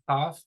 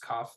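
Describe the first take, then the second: First: It begins with a breathy friction sound, no burst. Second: It begins with a sharp burst of air. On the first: "doesn't expel that, that plosion of air" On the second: "that does"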